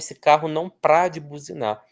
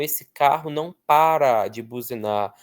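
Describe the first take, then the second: First: The word para is shortened to one syllable, pra. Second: The word para is said with two full syllables. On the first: The speaker calls it wrong. "Não existe isso" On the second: The speaker calls it right. "Nós só pronunciamos para"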